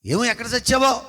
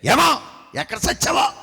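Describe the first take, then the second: First: Said in the usual way. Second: A sharp, higher shouted retort; snapping back. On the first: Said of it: "చూసారా?". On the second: Retold or imitated. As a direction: fire it straight back at him. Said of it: "ఒకేసారి అతను అంత స్పీడ్గా అంటే".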